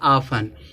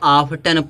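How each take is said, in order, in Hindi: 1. बीच में 't' की ध्वनि साइलेंट है। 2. बीच में 't' की ध्वनि बोली जाती है। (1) "टी क्या होगा? साइलेंट होगा" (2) "वह टी का साउंड देते हैं, जबकि ऑफ्टन नहीं पढ़ा जाता"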